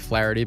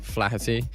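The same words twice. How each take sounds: First: The surname is said with an American pronunciation. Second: The surname is said with a British pronunciation. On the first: This is how people across the pond say it. "You would say Flaherty" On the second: This is how the name's owner says it. "but I say Flaherty because uh, we're from different sides of the pond"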